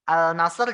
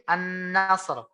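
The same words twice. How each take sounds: First: "Al-nasr" with the L sounded; a clear L in "Al-nasr"; lam dibaca jelas. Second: "an-nasr" slow, with a long held N; lam lebur berdengung. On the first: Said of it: "Al-nasr jadi an-nasr". ("Al-nasr" dengan lam jelas) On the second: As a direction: draw out the N in "an-nasr". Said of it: "jadi an-nasr". ("an-nasr" dengan nun ditahan) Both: Shown as a demonstration.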